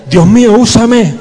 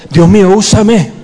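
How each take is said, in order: First: High, loud cry of Dios mío, úsame; full-voiced fervent shout; shouted prayer. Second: Louder call of Dios mío, úsame; fervent congregational cry; louder prayer. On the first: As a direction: shout it out to God. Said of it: "Grita, grita, grita". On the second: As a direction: raise the voice in prayer. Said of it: "ora conmigo". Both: Shown as a demonstration.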